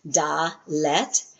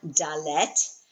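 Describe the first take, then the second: First: Dalet split in two, a gap between da and let; syllable by syllable. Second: Said in the usual way. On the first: Shown as a demonstration. Teacher showing the class the word's two syllables, syllable by syllable. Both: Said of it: "two syllables".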